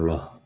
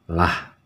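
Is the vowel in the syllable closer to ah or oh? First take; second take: oh; ah. First: The syllable has a heavy, rounded oh vowel. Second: The syllable has a light, open ah vowel. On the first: The speaker calls it wrong. "bukan loh" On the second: The speaker calls it right. "jadi dia disebut dengan lah"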